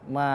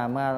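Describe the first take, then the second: No difference in how they are said.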